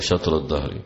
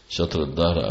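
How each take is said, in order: First: The first word ends in an i vowel. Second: The first word ends in a u vowel. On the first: The phrase restates the preceding noun. "والجر على البدل من صوم داود" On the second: The phrase stands as a separate clause. "بالرفع على القطع"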